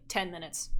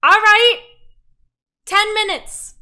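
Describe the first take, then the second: First: Softer, lower, offhand line; low-key reply. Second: Very loud, high holler; yelled reply. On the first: Innkeeper to the customer after snatching the copper, quietly. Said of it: "and he's like". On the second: Woman in the back room answering the innkeeper, yelling. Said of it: "And she's like". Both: Acted.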